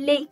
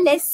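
First: It ends on a closed E vowel. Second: A final S consonant is pronounced. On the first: The speaker calls it right. "on dit les, car le S ici est équivalent à E accent aigu" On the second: The speaker calls it wrong. "On ne dit pas les"

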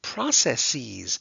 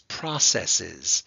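First: The last syllable ends with a long 'eez' sound. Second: The last syllable ends with a short 'iz' sound. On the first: The speaker calls it wrong. "they said processes. No, no, no, no, no, you can't do that. This is not ease" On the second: The speaker calls it right. "It is processes"

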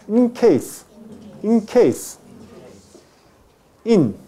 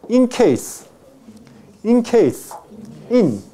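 Both takes have the same delivery.

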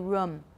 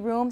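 First: The vowel is short, as in book. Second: The vowel is long, as in boot. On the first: This is a less common pronunciation some people use. "Some people say room" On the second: This is the speaker's usual pronunciation. "I say room"

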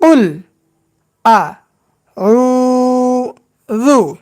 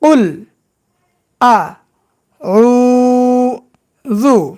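The two takes are said the same way.

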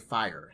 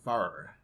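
First: The word is said with a standard non-southern vowel. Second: The word is said with a southern drawled vowel. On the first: This is how people elsewhere say it. "We don't say fire here in Nashville" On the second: This is how locals say it. "We say fire. ... That southern slang that I got"

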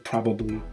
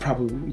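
First: The second 'b' is fully pronounced. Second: The second 'b' is dropped. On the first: The speaker calls it wrong. "you don't say probably" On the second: The speaker calls it right. "I think the last B is silent when you like really speak"

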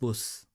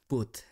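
First: The word ends with a th sound. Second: The word ends with a t sound. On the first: The speaker calls it right. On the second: The speaker calls it wrong.

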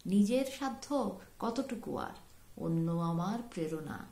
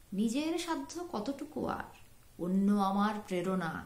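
The two takes are said the same way.

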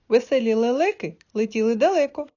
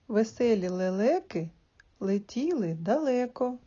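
First: It is said at a faster pace. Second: It is said at a slow pace. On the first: "а потім прискорюй темп" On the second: "Спочатку повільно"

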